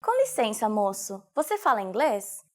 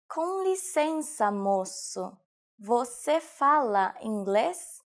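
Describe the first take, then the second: First: Said in the usual way. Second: Slow, measured syllables; slow teaching repetition. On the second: Shown as a demonstration. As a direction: take "Com licença, moço, você fala inglês" slowly, word by word. Teacher repeats sentence slowly. (slowed-down model for learners)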